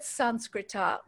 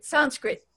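First: The word ends with a final vowel sound. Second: The word ends on a consonant, no final vowel. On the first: "which is the Sanskrit word for Sanskrit" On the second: "the way we're saying Sanskrit is really the Hindi pronunciation, takes the vowel off the end"

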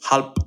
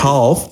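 First: The word ends with a p sound. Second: The word ends with an f sound.

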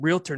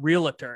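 First: The word is said with two syllables. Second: The word is said with three syllables. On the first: The speaker calls it right. "she should be saying realtor" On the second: The speaker calls it wrong. "not realtor"

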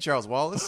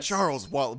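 First: The name is said casually, like a greeting. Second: The name is said sternly, like a reprimand. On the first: The speaker is simply calling to the child. "But then it's just like, hey" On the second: The speaker is scolding the child. "doing it like in a stern voice. So like, okay, she's like reprimanding"

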